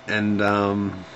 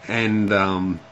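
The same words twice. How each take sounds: No difference in how they are said.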